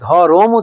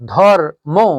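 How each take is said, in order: First: A vowel is inserted between the r and m. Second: The r runs straight into m, no vowel. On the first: "র এর সঙ্গে কিন্তু স্বরধ্বনি উচ্চারিত হচ্ছে" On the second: "এই র এর পরে কোনো স্বরধ্বনি উচ্চারিত হচ্ছে না"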